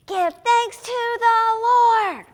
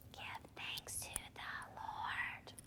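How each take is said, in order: First: High, slow, full-out shout; rooftop shout. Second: Slow, barely audible whisper; hushed, drawn-out whisper. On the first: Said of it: "scream it from the rooftops". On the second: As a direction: whisper the verse slowly to children. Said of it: "let's whisper". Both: Shown as a demonstration.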